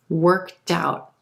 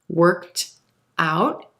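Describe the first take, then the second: First: The T sound links into the next word. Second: The two words are said separately.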